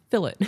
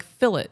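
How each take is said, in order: First: Fillet said fil-LAY, with a silent T; the proper way, fillet as fil-LAY; proper pronunciation. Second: Fillet said as it is written, with a hard T at the end; spelled-out reading. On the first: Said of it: "It doesn't look like fillet". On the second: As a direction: read fillet letter by letter, fill-it. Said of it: "I read it the way it's written". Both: Shown as a demonstration.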